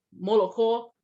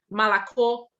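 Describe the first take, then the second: First: Molokô with every O kept, stress on KÔ; full-O variant. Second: Malakô with A in the unstressed syllables, stress on KÔ; reduced-vowel variant. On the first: (molokô com todos os "o" pronunciados) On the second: (Malakô com os "o" átonos virando "a") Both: Shown as a demonstration. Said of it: "formas diferentes de falar".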